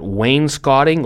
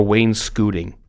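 First: "wainscoting" with "scot" rhyming with "hot"; first candidate pronunciation. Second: "wainscoting" with "scot" as "scoot"; second candidate pronunciation. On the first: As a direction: say WAYNE-skot-ing for "wainscoting". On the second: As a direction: say WAYNE-skoo-ting for "wainscoting". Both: Shown as a demonstration. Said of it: "tell me the proper pronunciation".

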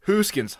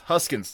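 First: "Hooskins" with a long oo, pitched higher; "Hooskins", first vowel as in goose; long OO variant. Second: "Huskins" with a short uh in the first syllable; "Huskins", first vowel as in husk; short U variant. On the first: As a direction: say "Hooskins" as HOOS-kins. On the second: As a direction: say "Huskins" as HUSS-kins. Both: Shown as a demonstration. Echoes both versions of surname.

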